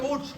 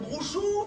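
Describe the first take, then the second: First: The word ends in a consonant. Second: The word ends in an oo vowel. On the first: The speaker calls it right. "on appelle ça le brouch" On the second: The speaker calls it wrong. "c'est mal prononcé"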